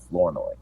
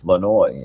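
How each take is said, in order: First: The name is said with an r sound. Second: The name is said without an r sound. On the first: The speaker calls it wrong. "not Flournoy" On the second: The speaker calls it right. "is how you pronounce it"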